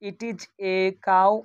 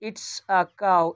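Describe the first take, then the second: First: "It is" is said as two separate words. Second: "It is" is joined into one word.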